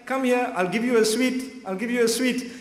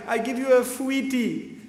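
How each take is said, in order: First: The word sweet is pronounced in the ordinary way. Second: The word is pronounced in a lisping baby-talk way.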